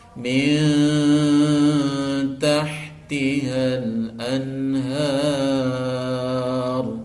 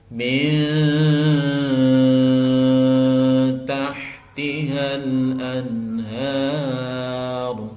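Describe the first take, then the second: The two takes are said the same way.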